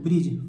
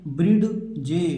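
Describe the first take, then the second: First: The d is silent, said as one syllable. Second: The d is sounded before a separate je. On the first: The speaker calls it right. "इस डी को छिपा लेना है" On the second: The speaker calls it wrong. "बहुत सारे बच्चे इसे क्या पढ़ेंगे"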